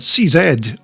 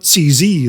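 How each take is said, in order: First: The name is said the non-American way. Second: The name is said the American way.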